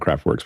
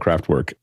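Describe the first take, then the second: First: The name ends in an English 'works' sound. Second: The name ends in a German 'werk' sound. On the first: The speaker calls it wrong. "what Americans will call Kraftwerks" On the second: The speaker calls it right. "pristine pronunciation"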